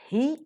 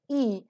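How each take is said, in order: First: The word begins with an audible h sound. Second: The word is said without any h sound. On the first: It comes at the start of a sentence. "It is pronounced as he when it occurs in the beginning of the sentence" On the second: It comes elsewhere in the sentence. "it is pronounced as e elsewhere"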